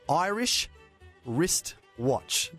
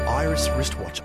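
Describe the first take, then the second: First: The phrase is said very slowly. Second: The phrase is said very quickly. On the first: "I'm going to have to say it very slowly" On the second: "Try and say that really quickly"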